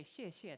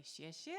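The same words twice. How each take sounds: First: 谢谢 said with a falling tone, as a statement; correct tone. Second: 谢谢 said with a rising question tone; 谢谢 rising at the end like a question; wrong questioning tone. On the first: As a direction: say 谢谢 the right way, falling, not asking. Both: Shown as a demonstration. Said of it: "That's not right anymore if you say it like that".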